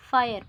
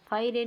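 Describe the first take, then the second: First: Said in the usual way. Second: फायरे with the final e sounded, "fai-ray"; wrong reading. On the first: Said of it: "फायर पढ़ते हैं". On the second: Shown as a demonstration. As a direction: voice the silent e at the end of फायरे. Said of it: "नहीं पढ़ते हैं". (फायरे, आख़िर में "रे" बोलकर)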